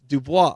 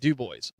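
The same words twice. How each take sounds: First: The name is said in a French way. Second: The name is said in an anglicized way. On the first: This is the name's real French pronunciation. The speaker calls it right. "and it's Dubois" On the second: This is how the locals have always said it. The speaker calls it wrong. "almost twenty-five years of calling it Dubois"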